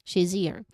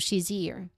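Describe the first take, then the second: First: The z sound runs straight into the next word. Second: The same.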